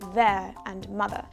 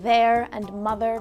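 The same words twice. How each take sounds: First: The final R sounds are dropped. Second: The final R sounds are pronounced. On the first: "drop the R from the ends of your words" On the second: "Words like"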